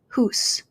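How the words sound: The vowel is a single 'oo' sound. "They're going to say hoose"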